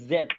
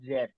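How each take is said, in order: First: It starts with a buzzing z sound. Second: It starts with a j sound, as in judge. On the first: The speaker calls it right. "এটা হবে জেড" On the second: The speaker calls it wrong. "আপনারা সবাই জেড বলেন"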